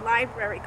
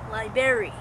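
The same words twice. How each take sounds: First: The ending is said in the standard way. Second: The ending sounds like 'berry', as in strawberry. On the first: The speaker calls it right. "I still say library correctly" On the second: The speaker calls it wrong. "You say library, like strawberry"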